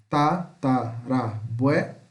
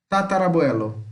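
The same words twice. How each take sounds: First: Ta - ta - ra - bue - lo, spaced out; slow, chopped-up Tatarabuelo; syllable separation. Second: Said in the usual way. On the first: Shown as a demonstration. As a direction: pause after each syllable of Tatarabuelo. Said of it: "separação de sílaba". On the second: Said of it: "Veja as demais palavras".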